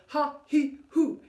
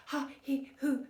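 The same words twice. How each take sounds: First: Ha he hoo, louder, pushed from the navel; from the core. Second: Shallow chest breath. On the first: Coach showing the right deep core breath. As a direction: punch it from the belly. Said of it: "Deep, navel back to spine". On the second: Coach showing the wrong shallow breath. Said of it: "that's not quite what I'm looking for". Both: Shown as a demonstration.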